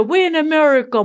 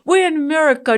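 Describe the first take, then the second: First: Fast, high, loud mock protest with we're stressed; imitating the boys insisting; kids' loud complaint. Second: Loud, high mock protest with we're stressed; imitating the boys repeating it; kids' loud complaint. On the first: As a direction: rattle off we're in America in exasperation. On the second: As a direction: insist we're in America like a fed-up kid. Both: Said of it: "my boys will always say".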